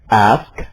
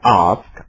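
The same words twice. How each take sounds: First: It is said in an American accent. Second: It is said in a British accent. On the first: "Saya akan mengucapkannya dengan gaya Amerika" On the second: "Orang Inggris mengucapkannya ask"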